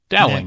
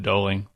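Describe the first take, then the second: First: The first syllable rhymes with cow. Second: The first syllable does not rhyme with cow. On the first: The speaker calls it right. "The Dow in Dowling rhymes with cow" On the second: The speaker calls it wrong. "I probably said Doling"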